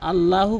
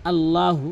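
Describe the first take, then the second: Both takes have the same delivery.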